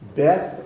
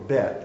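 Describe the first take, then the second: First: The word ends with a 'th' sound. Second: The word ends with a plain 't' sound. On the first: This is the usual way it is said. "that's the way it usually is pronounced" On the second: This matches the original language, which lacks that sound. "There is no TH sound in Hebrew"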